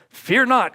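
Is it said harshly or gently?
harshly. It is yelled as a harsh command.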